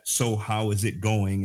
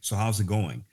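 First: The words are said clearly and separately. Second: The words are smushed together into one.

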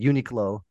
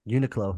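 First: It sounds like the words 'unique' and 'low'. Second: It does not sound like 'unique' and 'low'.

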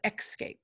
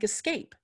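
First: It begins with an 'ex' sound. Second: It begins with a plain 'es' sound. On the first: The speaker calls it wrong. "not escape" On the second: The speaker calls it right. "like escape"

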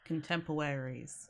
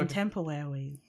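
First: It is said in the speaker's ordinary voice. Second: It is said in a blank, spaced-out character voice. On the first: The speaker calls it wrong. "I didn't say that in character" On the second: The speaker calls it right. "because they were staring at space, just like, okay"

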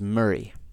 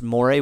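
First: It is said like 'murray', with a reduced ending. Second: It is said like 'more-ay', following the spelling. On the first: The speaker calls it right. "the pronunciation of it, even though it's spelled Moray, is Murray" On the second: The speaker calls it wrong. "which is how I pronounce it forever, until I learned"

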